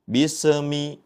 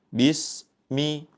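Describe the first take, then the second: First: The s sound is bounced with a rebound. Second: The s sound is cut off abruptly. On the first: "dengan dipantulkan" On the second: "dengan terputus"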